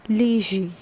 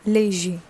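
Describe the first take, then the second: No difference in how they are said.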